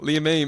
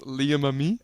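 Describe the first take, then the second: First: The name ends in a one-syllable 'aim'. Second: The name ends in a two-syllable 'ah-mee'. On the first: This is how the owner says the name. "That's how I say it" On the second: This is how many other people assume it goes. "A lot a lot of people think it's"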